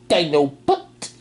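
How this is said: It is said imitating Rat Trap's voice.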